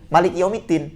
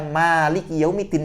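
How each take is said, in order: First: The vowel after the m is short. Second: The vowel after the m is long.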